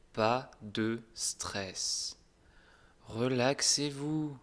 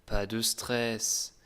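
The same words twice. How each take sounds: First: Slow right down and soothe; calm and slow. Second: Slow. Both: Shown as a demonstration.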